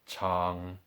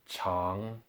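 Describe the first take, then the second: First: The pitch stays low in the third tone. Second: The pitch starts low and then rises. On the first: "just three tones" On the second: "followed by double three tones"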